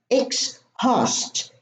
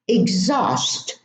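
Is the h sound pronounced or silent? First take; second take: pronounced; silent. First: The h sound is pronounced. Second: The h sound is silent. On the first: The speaker calls it wrong. "not exhaust" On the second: The speaker calls it right. "we also have a silent H in these words"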